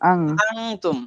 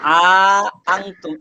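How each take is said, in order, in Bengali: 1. প্রথম স্বরধ্বনিটি ছোট রাখা হয়েছে। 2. প্রথম স্বরধ্বনিটি টেনে দীর্ঘ করে বলা হয়েছে।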